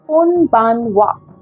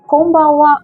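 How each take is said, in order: First: The word is said slowly and carefully. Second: The word is said quickly and naturally. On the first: "When said slowly" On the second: "while saying it fast and to sound naturally"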